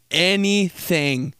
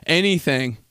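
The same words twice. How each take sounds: First: "Anything" stretched out and pitched higher; emphatic ANYTHING. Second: Said in the usual way. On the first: Real, not acted. Stressing dad's fires at any excuse, drawn-out emphatic "Anything".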